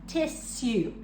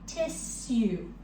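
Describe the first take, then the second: No difference in how they are said.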